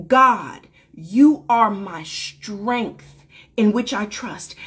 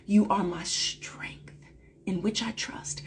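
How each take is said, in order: First: The mantra said aloud, slow and deliberate; spoken aloud. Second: Whispered affirmation, said to oneself; whispered mantra. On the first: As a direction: voice the affirmation slowly. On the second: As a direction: breathe it as a private prayer. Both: Shown as a demonstration. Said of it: "a mantra and an affirmation I speak to myself".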